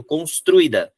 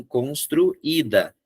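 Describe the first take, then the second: First: "construída" misread as cons-TRUI-da; "construída" with stressed u and weak i; vowels run together. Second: "construída" slowly as constru, then Í-da; "construída" slowed, i on its own beat; separated vowels. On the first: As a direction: glide ui into one syllable in "construída". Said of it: "eu vou ler junto". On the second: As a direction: break before the stressed í in "construída". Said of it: "preciso separar as duas". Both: Shown as a demonstration.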